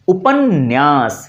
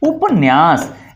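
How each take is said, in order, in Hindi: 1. "n" ध्वनि दो बार बोली जाती है। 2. "n" ध्वनि एक बार बोली जाती है। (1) "नौ का उच्चारण हम दो बार करते हैं" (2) "क्या लिखा होता है?"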